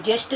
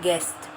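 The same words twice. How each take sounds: First: "जेस्ट" with j in place of g; wrong J sound. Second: "गेस्ट" with hard g; correct hard G. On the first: Teacher showing children the mistake, "जेस्ट" with j. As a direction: say guest as "जेस्ट". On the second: Teacher correcting for children, "गेस्ट" with hard g. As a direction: open "गेस्ट" on a g, not a j. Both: Shown as a demonstration. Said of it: "जेस्ट नहीं बोलते".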